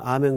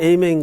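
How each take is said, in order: First: It starts with an 'ah' vowel: ah-men. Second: It starts with an 'ay' vowel: ay-men. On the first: "우리는 아멘 그러고" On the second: "미국에서는 에이멘 그러고"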